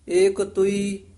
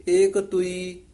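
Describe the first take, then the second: The two takes are said the same way.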